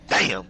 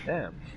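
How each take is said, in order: First: It is exclaimed loudly. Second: It is said more softly.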